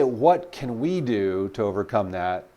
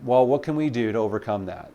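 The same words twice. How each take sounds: First: Slow, each word weighed out; slow deliberate question. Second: Said in the usual way. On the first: Shown as a demonstration. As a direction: ask it slowly so it lands. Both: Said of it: "And when you say".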